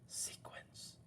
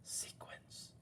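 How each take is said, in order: First: It is said in a soft whisper. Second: The same.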